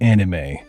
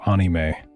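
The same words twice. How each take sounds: First: The word is pronounced with American-style vowels. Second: The word is pronounced with Japanese-style vowels. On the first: The speaker calls it wrong. "You're supposed to pronounce it like an American" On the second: The speaker calls it right. "I hate how people pronounce it anime"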